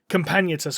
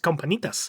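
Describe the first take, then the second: First: The name is said with a plain English pronunciation. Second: The name is said with a Spanish-style pronunciation. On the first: "I'm pretty sure it's meant to be said like" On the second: "I just have this Spanish for pronunciation in my head"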